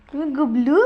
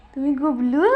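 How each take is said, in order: Both takes have the same delivery.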